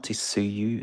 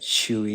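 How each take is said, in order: First: The name begins with a ts sound. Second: The name begins with an sh sound. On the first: The speaker calls it wrong. "It's not Tisuyu" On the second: The speaker calls it right. "like Shui"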